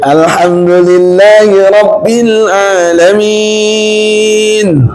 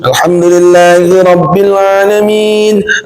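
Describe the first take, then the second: First: It is recited slowly with long drawn-out sounds. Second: It is recited quickly with brisk pacing. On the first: The long style tires the people praying behind. "lama gitu" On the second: The fast style follows the recitation rules and is liked. "membaca cepat, tapi cepatnya menggunakan kaidah tajwid ... Cepat"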